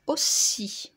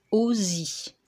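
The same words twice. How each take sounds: First: « aussi » avec un S sifflant, o-ssi; son S. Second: « aussi » prononcé « auzi »; un seul S, son Z. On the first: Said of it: "pour faire le son S". (« aussi » articulé avec un S sourd) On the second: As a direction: remplace le S de « aussi » par un Z sonore. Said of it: "Si je ne mets qu'un seul S". (« aussi » dit o-zi, avec z) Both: Shown as a demonstration.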